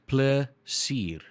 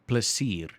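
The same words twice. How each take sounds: First: The word is said at a slower pace. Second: The word is said at a quicker pace.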